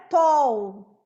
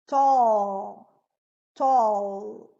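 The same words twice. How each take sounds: First: "tall" mispronounced ending in a U glide; wrong final U for L. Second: "Tall" low, held into a dark L; dark L ending. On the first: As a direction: say "tall" like "tou", losing the L. ("tall" errado, com som de U) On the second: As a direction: draw out a dark final L on "Tall". ("Tall" com L escuro no final) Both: Shown as a demonstration. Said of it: "não é tall".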